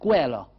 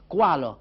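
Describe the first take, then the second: First: It begins with 'ke' and ends in 'a'. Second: It begins with 'ka' and ends in 'a'. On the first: "à Marseille" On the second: "dans le Var"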